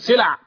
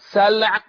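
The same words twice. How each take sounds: First: The vowels differ from an open a then silent l. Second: The s takes an a and the l is silent. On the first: The speaker calls it wrong. "الذين ينطقون بغير ذلك ويقولون سلع" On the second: The speaker calls it right. "سلع بالفتح على الساء والتسكين على اللام"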